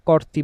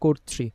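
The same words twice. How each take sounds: First: The first vowel is an open 'aw' sound. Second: The first vowel is a closed 'o' sound. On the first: The speaker calls it wrong. "কর্তৃ বলবো না" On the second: The speaker calls it right. "আর কি বলবো?"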